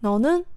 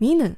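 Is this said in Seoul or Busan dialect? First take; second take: Seoul; Busan. First: It is said in the Seoul dialect form. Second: It is said in the Busan dialect form.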